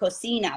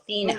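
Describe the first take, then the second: First: The soft c is said as an s. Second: The soft c is said as a th. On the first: This is how it is said in Mexico. The speaker calls it wrong. "it's not cocina, like in Mexico" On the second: This is how it is said in Spain. The speaker calls it right. "had to lisp on those"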